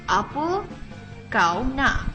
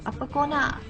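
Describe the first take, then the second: First: The pronoun keeps its full diphthong, said slowly. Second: The pronoun is shortened to a quick 'ko'. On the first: "if you speak it slowly, it would be apa kau nak" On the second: "because it's shortened, it would sound like ko"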